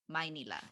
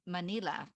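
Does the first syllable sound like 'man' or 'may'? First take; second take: may; man. First: The first syllable sounds like 'may'. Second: The first syllable sounds like 'man'. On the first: "she says my, my, Manila, M A Y" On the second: "instead of Man"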